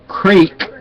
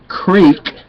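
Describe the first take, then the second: First: The vowel is a long 'ee' sound. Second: The vowel is a long 'ee' sound.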